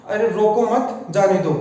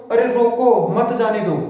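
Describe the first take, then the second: First: "अरे रोको मत", short pause, then "जाने दो"; slowly, keeping मत attached to रोको; pause after मत. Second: "अरे रोको", a beat, then "मत जाने दो" in one run; slowly, with मत attached to जाने दो; pause after रोको. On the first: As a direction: tell them not to stop him, breaking after मत. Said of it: "यानी इसे रोकना नहीं है". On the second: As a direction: order them to stop him, breaking after रोको. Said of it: "इसका अर्थ होगा". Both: Shown as a demonstration.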